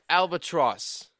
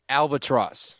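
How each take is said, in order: First: It is said in a British accent. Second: It is said in his ordinary accent.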